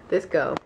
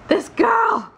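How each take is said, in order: First: Said in the usual way. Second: A much higher, louder mock-Scottish shout; excited Scottish accent. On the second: Gushing about Jamie in a loud, high mock-Scottish shout. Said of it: "my Scottish accent is very good".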